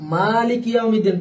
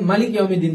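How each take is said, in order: First: The first vowel of maliki is drawn out long. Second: The first vowel of maliki is kept short.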